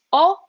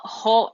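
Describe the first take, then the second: First: A pure open O with no H, pitched up; O with the H dropped; silent H. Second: HO said with an audible English H; wrongly sounded H. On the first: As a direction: say O straight on the vowel. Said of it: "it's o". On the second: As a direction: breathe out the H in HO. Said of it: "So it's not ho". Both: Shown as a demonstration.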